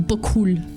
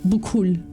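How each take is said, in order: First: It is run together as one word. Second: It is run together as one word.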